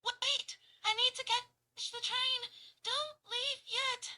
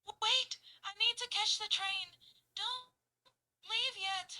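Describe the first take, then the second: First: High, loud, breathless pleading; out of breath. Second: High, loud, panting pleas; heavily panting. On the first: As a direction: gasp it out, out of breath. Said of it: "running out of breath". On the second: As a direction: pant between words, winded. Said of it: "very heavily breathing and panting". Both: Shown as a demonstration.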